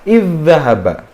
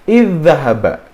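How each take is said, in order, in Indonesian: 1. Dh pertama menyatu dengan dh yang mengikutinya. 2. Dh pertama menyatu dengan dh yang mengikutinya.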